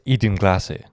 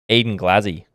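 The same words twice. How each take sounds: First: It is said in a posh British accent. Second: It is said in an Australian accent. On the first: This is how it sounded in colonial times. "like we were back in the day" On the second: This is how it would sound today. "but with Aussie accents now"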